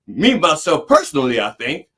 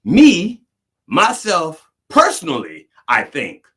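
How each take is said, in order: First: Mocking comedian. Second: Mocking, stress on "Me"; mocking comedian. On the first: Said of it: "I'd rather hear him say that than". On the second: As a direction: ham up the redundant "Me, myself, personally". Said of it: "you talk about redundancy".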